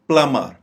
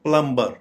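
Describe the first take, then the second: First: No b sound is pronounced in the middle. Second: A b sound is pronounced in the middle. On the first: The speaker calls it right. "दुरुस्त pronunciation में बी silent हो जाएगा" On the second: The speaker calls it wrong. "ये गलत pronunciation है"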